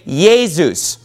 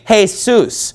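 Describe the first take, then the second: First: The name is said the German way. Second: The name is said the Spanish way.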